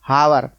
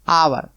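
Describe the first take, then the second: First: The word begins with an h sound. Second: The word begins with a vowel sound. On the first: The speaker calls it wrong. "कभी आप हावर मत पढ़ना ... ये गलत हो जाएगा" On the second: The speaker calls it right. "ये एच जो है साइलेंट है"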